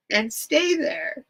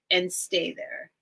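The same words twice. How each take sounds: First: Choked up, higher and drawn out; tearful reading. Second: Said in the usual way. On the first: Real, not acted. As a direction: read it through real tears, slowly. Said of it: "why is this making me cry". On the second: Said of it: "let me reread that last line".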